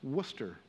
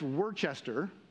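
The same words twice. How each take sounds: First: The name is said in a shorter, simpler form. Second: The name is said in a longer, fuller form. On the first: The speaker calls it right. "But simply, it's just Worcester" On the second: The speaker calls it wrong. "A lot of people want to say that's Worcester"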